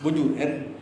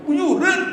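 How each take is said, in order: First: Said in the usual way. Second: "Bujuran." said much higher and louder, rising at the end like a surprised question. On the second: Shown as a demonstration. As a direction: toss "Bujuran." up high in astonishment. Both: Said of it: "Intonasi itu mempengaruhi".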